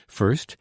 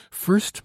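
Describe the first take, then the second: First: Said in the usual way. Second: Much higher, cutting in eagerly; urgent. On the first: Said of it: "she said". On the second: A narrator's reading. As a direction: jump in, impatient for news of the father. Albert interrupting, urgent for father.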